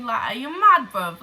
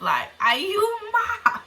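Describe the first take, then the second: First: Said in the usual way. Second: High, slow, stretched "are you mad"; incredulous. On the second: Retold or imitated. Asking the girl in disbelief, high drawn-out challenge. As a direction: draw out the disbelief. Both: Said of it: "repeats question with more force".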